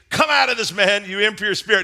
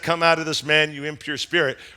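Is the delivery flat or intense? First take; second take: intense; flat. First: It is said forcefully, with strong intensity. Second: It is said in a flat, monotone voice. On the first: The moment is a powerful confrontation. The speaker calls it right. "Jesus says with intensity" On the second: The moment seems ordinary and calm. The speaker calls it wrong. "We read it in this monotone voice"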